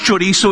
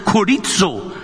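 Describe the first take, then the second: First: "chorizo" with a CH as in church; Spanish sausage "chorizo", starting CH; usual Spanish pronunciation. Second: "chorizo" with a hard K start, ko-REET-so; "chorizo" pronounced ko-REET-so; Greek-style pronunciation. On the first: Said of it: "it's not pronounced chorizo". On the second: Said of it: "it's pronounced chorizo". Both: Shown as a demonstration.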